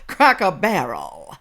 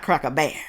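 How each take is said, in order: First: The last word has two syllables, barrel. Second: The last word is squeezed into one syllable, bear. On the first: The speaker calls it right. "Cracker Barrel, honey child" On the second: The speaker calls it wrong. "She can't even say the name right"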